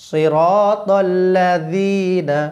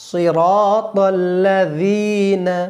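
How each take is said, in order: No difference in how they are said.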